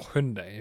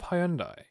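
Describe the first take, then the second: First: It is pronounced the American way. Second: It is pronounced the British way.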